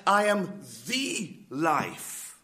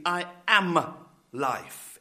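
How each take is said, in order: First: "the" said as a long "thee"; slow, weighty "I am the life", leaning on "the"; emphatic, stress on THE. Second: "am" drawn out with firm weight; slow "I am life", leaning on "am"; emphatic, stress on AM. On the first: Preacher sharpening Jesus's claim for the congregation, emphatic "the". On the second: Preacher quoting Jesus's claim to a congregation, emphatic "am". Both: Retold or imitated. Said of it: "quite emphatically".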